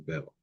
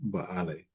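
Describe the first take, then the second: First: The name is said as one short syllable. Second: The name is said with two syllables. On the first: This is the usual pronunciation. The speaker calls it wrong. "commonly pronounced as Bel" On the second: This follows the original sound of the name. The speaker calls it right. "but Baale, according to um, phonetic construction"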